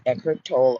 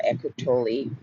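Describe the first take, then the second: First: Tolle in one syllable, like "toll"; Tolle as TOLE. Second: Tolle in two syllables, ending "lee"; Tolle as TOH-lee. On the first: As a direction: leave the final e of Tolle silent. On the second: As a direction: sound the last e of Tolle as "ee". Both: Shown as a demonstration. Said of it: "They pronounce it either way".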